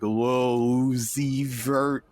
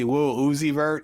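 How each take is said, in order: First: The name is drawn out slowly. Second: The name is said at normal speed.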